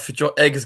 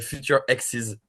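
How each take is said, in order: First: The second word sounds like 'eggs'. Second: The second word sounds like 'exes'. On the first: The band name is about eggs of the future. The speaker calls it wrong. "comme les œufs, comme les œufs du futur, tu veux dire?" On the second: The band name is about future former partners. The speaker calls it right. "une petite rectification de prononciation"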